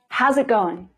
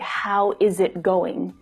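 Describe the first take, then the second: First: The word 'is' is contracted onto 'how'. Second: The word 'is' is said in full. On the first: The speaker calls it right. "let's put it all together" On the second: The speaker calls it wrong. "It's really unnatural to say"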